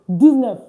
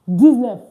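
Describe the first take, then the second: No difference in how they are said.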